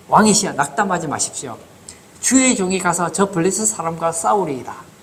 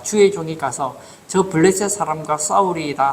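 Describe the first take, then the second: First: Put-on mildly bold young challenger's pledge to a king; understated self-assured declaration; cocky-seeming boldness. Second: Said in the usual way. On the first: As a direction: lightly act out an overconfident volunteer. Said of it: "얼마나 교만해 보입니까?".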